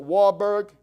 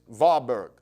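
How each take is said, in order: First: The name is said with an English pronunciation. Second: The name is said with a German pronunciation. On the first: "Some people pronounce it" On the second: "in his German, it's"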